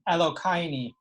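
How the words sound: The word ends with an 'ee' vowel.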